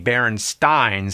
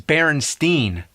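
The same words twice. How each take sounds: First: The ending is said like the end of Frankenstein. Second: The ending is said unlike the end of Frankenstein. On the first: This is how the spelling suggests it is said. "the most likely pronunciation would be Berenstein, since it was spelled the same way like Frankenstein" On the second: This is how people commonly say it. "everybody I ever met says Berenstein"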